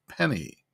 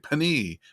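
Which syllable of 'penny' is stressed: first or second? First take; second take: first; second. First: The stress is on the first syllable. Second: The stress is on the second syllable. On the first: The speaker calls it right. "We say penny" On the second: The speaker calls it wrong. "We don't say penny"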